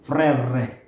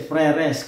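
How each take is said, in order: First: The word ends without an S sound. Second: The final S sound is pronounced. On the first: It is said the French way. The speaker calls it right. "Pero silent S siya" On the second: It is read as spelled, letter by letter. The speaker calls it wrong. "may S sa dulo yun, kung babasahin mo siya kada letra"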